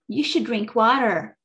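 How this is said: It is said in an American accent.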